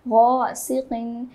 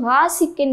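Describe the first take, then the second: First: The first syllable is heavy and full. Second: The first syllable is light and thin. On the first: The speaker calls it right. "हम पुर यानी कि मोटा करके पढ़ेंगे" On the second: The speaker calls it wrong. "इसको हम ग़ासिक़िन नहीं पढ़ेंगे"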